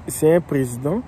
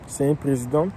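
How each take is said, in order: Both takes have the same delivery.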